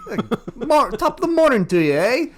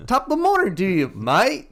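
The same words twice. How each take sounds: First: High, loud, fast mock Irish brogue; mock Irish accent. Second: High, loud, fast Irish-Australian mashup; mixed mock accent. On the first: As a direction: ham up a cheesy Irish greeting. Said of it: "I don't even know if that was a right accent". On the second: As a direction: toss in a jokey Aussie-Irish blend. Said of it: "Australian and Irish and English".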